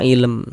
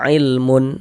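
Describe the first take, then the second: First: The word ends on a bare m. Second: The word ends in a vowel plus n. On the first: The speaker calls it right. "huruf mimnya kita sukunkan, kita matikan" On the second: The speaker calls it wrong. "Jangan dibaca ilmun baru berwakaf"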